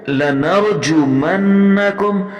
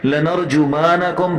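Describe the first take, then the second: First: The doubled n is held firmly and clearly. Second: The doubled n is weak and barely held. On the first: The speaker calls it right. "सख्ती से ज़रा अदा करना है" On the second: The speaker calls it wrong. "शद को साफ सुथरा नहीं अदा करते"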